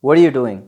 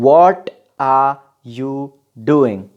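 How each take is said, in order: First: The words flow quickly together. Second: Each word is said slowly and separately.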